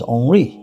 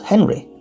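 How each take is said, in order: First: The name is pronounced in a French way. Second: The name is pronounced in an English way. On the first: The speaker calls it right. "I'm often using the French terms rather than the English" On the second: The speaker calls it wrong. "not Henry"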